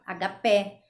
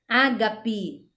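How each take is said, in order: First: The stress is on a later syllable. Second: The stress is on the first syllable. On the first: The speaker calls it wrong. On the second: The speaker calls it right.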